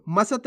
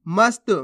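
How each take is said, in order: First: मसत as ma-sat; full-letter misreading. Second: मस्त with स joined to त; no vowel between स and त in मस्त; half-letter pronunciation. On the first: Teacher rejects this reading, मसत with full स. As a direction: put a vowel after स in मसत. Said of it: "नहीं". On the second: Teacher answers how to read it, मस्त with half स. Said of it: "कैसे पढ़ेंगे". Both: Shown as a demonstration.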